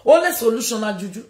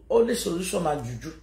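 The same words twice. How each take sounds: First: "Only solution na juju." raised and pushed; louder emphatic repeat. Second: Said in the usual way. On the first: Shown as a demonstration. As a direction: hit "Only" hard, declare it.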